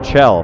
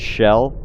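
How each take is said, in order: First: The name begins with a hard 'ch' sound. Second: The name begins with a soft 'sh' sound. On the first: This is how the game itself says it. The speaker calls it right. "they just said Chell very clearly" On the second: Someone else says it this way. The speaker calls it wrong. "that pronounces it Shell"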